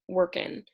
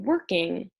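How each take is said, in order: First: The final g sound is dropped. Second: The final g sound is pronounced. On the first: The speaker calls it wrong. "drops the G at the end of her words" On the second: The speaker calls it right. "saying working instead of workin'"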